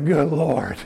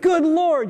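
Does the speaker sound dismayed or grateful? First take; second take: dismayed; grateful. First: It is said wearily, in a dismayed tone. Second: It is said warmly, in a grateful tone. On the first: The day is greeted with dread. The speaker calls it wrong. "you say, good Lord. It's already 5:30. Ugh" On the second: The day is greeted with thanks. The speaker calls it right. "instead of saying"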